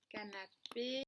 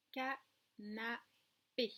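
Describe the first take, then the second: First: Said in the usual way. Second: Very slow "canapé", cut in three; "canapé" split into separate syllables for pupils. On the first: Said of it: "voilà le mot". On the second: Shown as a demonstration. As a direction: say ca... na... pé with pauses. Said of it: "Trois syllabes".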